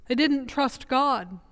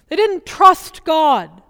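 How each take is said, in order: First: Softer and slow, "didn't" let down gently; quiet repeat. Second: Slow, loud, with "didn't" punched hard; stress on didn't. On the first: Preacher to congregation, softly repeating the refrain. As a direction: let the line drop away in sad resignation. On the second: Preacher to congregation, slow and emphatic on "didn't". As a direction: lean hard on "didn't" as a firm rebuke. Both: Shown as a demonstration.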